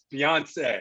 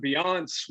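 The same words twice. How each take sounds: First: Beyonce with three syllables, ending in "say"; corrected pronunciation. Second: Beyonce said as "bee-AHNCE", two syllables; mispronounced name. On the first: Co-host correcting his partner on air, [name] pronounced "bee-on-SAY". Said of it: "on the air, I said". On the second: Broadcaster reading a promo, [name] mispronounced as "bee-AHNCE". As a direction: say Beyonce without the final "say". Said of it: "He goes". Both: Retold or imitated.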